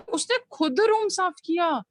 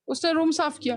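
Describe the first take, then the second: First: खुद given a mild lift and weight; stress on खुद. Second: Said in the usual way. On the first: Shown as a demonstration. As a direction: press lightly on खुद to insist. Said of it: "खुद जो word है उस पे stress दे रही हूँ". (खुद पर हल्का ज़ोर) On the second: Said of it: "मैं ये भी कह सकती थी ना".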